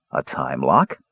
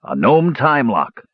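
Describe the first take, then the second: First: Low echo rising into a question; puzzled question. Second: Slow, higher-pitched triumphant announcement. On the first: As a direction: repeat it uncomprehendingly, starting low. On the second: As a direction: announce the discovery with relish, drawn out. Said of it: "said Dugan triumphantly". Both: A narrator's reading.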